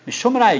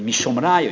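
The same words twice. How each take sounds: First: It is said with a flat statement tune. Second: It is said with a questioning tune. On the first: It states where the proof comes from. The speaker calls it right. "hogy nem kérdésben" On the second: It asks where the proof comes from. The speaker calls it wrong. "azt nem így olvassák"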